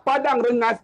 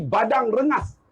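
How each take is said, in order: First: Said in the usual way. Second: "Badang Rengas" with B for the P of Padang; P turned to B. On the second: Shown as a demonstration. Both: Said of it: "Fa jadi ba".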